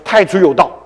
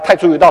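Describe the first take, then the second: First: It is said confidently, like an exclamation. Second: It is said doubtfully, like a question. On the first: The reader firmly believes the scripture. The speaker calls it right. "惊叹号啊" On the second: The reader doubts the scripture is true. The speaker calls it wrong. "打问号"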